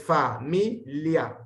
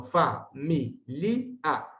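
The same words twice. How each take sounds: First: Fa-mi-lia, li and a joined as in Spanish; Spanish syllabification. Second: Fa-mi-li-a, li and a kept apart; Latin syllabification. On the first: Teacher showing the Spanish way as the wrong one. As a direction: familia split the Spanish way. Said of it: "como haríamos en español". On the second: Teacher showing the correct Latin syllables. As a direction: familia in four syllables. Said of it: "no existen los diptongos crecientes". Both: Shown as a demonstration.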